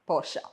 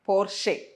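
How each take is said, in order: First: The word ends in an 'a' vowel. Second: The word ends in an 'e' vowel. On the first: The speaker calls it right. "പോർഷ ആണ്" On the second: The speaker calls it wrong. "അങ്ങനെയാണ് ആളുകൾ പറയുന്നത്"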